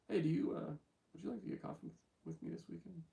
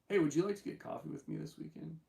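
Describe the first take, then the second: First: It is said with stumbles and repeated words. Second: It is said smoothly without stumbling.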